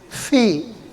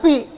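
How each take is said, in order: First: The word starts with an f sound. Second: The word starts with a p sound. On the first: The speaker calls it right. "kayak kita mengucapkan huruf F" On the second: The speaker calls it wrong. "Jangan pi ya"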